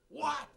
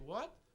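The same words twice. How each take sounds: First: It sounds like a startled, surprised reaction. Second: It sounds like a puzzled, questioning request. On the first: The listener is reacting to unexpected news. "Or you just told me some news and I go" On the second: The listener did not hear what was said. "Like I didn't hear what you say"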